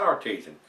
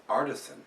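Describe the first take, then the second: First: Artesian, said ar-TEE-zhun; wrong pronunciation. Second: Artisan, said AR-tuh-sun; corrected pronunciation. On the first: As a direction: hit the long TEE in Artesian. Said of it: "That's not Artesian". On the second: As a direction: stress the AR in Artisan. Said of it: "it's Artisan". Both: Shown as a demonstration.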